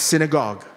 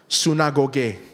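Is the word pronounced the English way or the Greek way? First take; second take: English; Greek. First: The word is pronounced the English way. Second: The word is pronounced the Greek way. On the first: "But pronounced in English" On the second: "how to pronounce it in Greek, it's actually Greek. It's pronounced synagoge"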